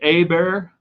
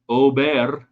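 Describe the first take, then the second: First: The name begins with an 'ah' vowel. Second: The name begins with an 'oh' vowel. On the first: The speaker calls it wrong. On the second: The speaker calls it right.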